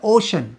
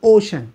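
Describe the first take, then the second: First: It has two syllables, 'o-shun'. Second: It has two syllables, 'o-shun'.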